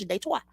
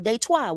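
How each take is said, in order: First: The name is pronounced the French way. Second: The name is pronounced the usual English way. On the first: This is what the city really is called. "That's how you say it in French" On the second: This is what other people call the city. "what y'all call"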